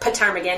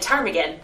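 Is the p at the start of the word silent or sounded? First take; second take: sounded; silent. First: The starting p is sounded. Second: The starting p is silent.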